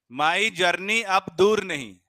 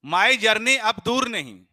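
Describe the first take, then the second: First: Very slow, loud recital of My journey अब दूर नहीं. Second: Very slow, loud, high recital. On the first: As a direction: stretch My journey अब दूर नहीं slowly and loudly. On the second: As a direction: drag each word out for the class. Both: Shown as a demonstration. Teacher recites mnemonic slowly.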